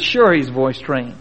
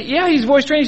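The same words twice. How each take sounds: First: Low, slow, easy drawl of a mule seller; lazy, sure-of-himself drawl, pitched low; calm Arkansas mule seller, slow and low. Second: Insistent seller. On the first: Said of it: "The man that was up said". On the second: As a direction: push back, pitched up and firm. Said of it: "The man said". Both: Retold or imitated.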